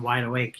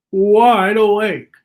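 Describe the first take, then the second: First: Said in the usual way. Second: Slow, drawn-out, louder 'wide awake'; wide awake. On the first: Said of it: "I was doing my impression". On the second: Shown as a demonstration. Reader showing the child someone wide awake, slow and exaggerated. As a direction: stretch it out big and loud. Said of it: "I was doing my impression of wide awake".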